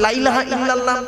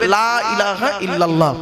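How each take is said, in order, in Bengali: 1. বাক্যটি দ্রুত ও তাড়াহুড়ো করে বলা হয়েছে। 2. বাক্যটি ধীরে ও সতর্কভাবে বলা হয়েছে। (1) "তাড়াহুড়ো করে যদি বলেন" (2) "অন্তত ধীরে একটু বলবেন"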